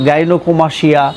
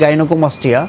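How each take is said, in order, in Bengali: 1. শেষের অংশটি 'sh' ধ্বনি দিয়ে উচ্চারিত হয়। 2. শেষের অংশটি 'st' ধ্বনি দিয়ে উচ্চারিত হয়। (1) "অনেকে বলে থাকেন যে ... এটি কিন্তু সঠিক নয়" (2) "সঠিক উচ্চারণ"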